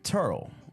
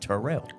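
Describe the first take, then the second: First: The name is said in a clipped, casual form. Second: The name is said in a full, careful form. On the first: This is how locals actually say it. "I'm from Turl" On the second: This is the official pronunciation nobody uses. "the proper pronunciation is Terrell"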